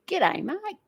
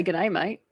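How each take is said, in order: First: Exaggerated nasal Australian twang, swooping high; broad Aussie accent. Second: Said in the usual way. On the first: Shown as a demonstration. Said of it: "but I don't say". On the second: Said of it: "I do say".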